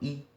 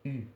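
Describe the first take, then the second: First: The vowel is a plain i with spread lips. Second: The vowel is an i said with rounded lips. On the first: "então eu falo I mesmo" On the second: "Eu faço a boca de U e falo I"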